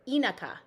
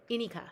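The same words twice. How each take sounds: First: "inaka" with a weak uh in the middle; careful "inaka", middle vowel reduced to schwa. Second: "Inika" with a clear ee in the middle; careful "Inika", middle vowel kept full; practised pronunciation. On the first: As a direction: say "inaka" as EE-nuh-kah, first syllable stressed. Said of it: "It's a schwa vowel". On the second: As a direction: try "Inika" as EE-nee-kah, first syllable stressed. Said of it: "I'm gonna try saying it that way". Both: Shown as a demonstration.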